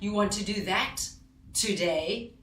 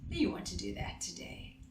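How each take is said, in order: First: It sounds upset and angry, stressing today. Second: It sounds loving and warm throughout. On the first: It has been asked many times before, and only now happens. "now I'm sounding more upset. I'm a little bit angry" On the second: It is welcomed that this is what they chose to do. "Loving, warm"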